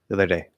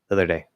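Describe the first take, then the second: Both takes have the same delivery.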